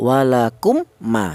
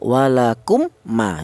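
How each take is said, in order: First: The two m sounds are pronounced separately and clearly. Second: The two m sounds are pronounced separately and clearly.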